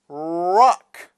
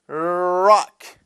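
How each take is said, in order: First: The r is made with rounded, pushed-forward lips. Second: The r is made without rounded lips. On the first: The speaker calls it right. "بگین راک" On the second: The speaker calls it wrong. "نگین راک"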